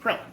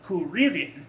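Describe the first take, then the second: First: The name is said with two syllables. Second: The name is said with three syllables. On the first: This is how Americans say the name. "In America, we pronounce Krillin's name" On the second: This is how Japanese speakers say the name. "In J- Japan, they pronounce it"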